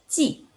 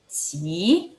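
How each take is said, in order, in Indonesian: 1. Diucapkan dengan nada keempat. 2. Diucapkan dengan nada kedua. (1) "Nada empat" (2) "nada dua"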